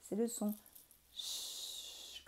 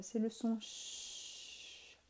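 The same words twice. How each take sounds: First: "ch" breathed very softly, barely audible; a soft "ch" shown to children; hushed ch. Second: Slow, long hissed "ch" sound; a drawn-out "ch" for young pupils. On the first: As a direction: let the "ch" hiss out quietly. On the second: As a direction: stretch the "ch" like a soft hush. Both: Shown as a demonstration. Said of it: "un nouveau son qui est facile à entendre".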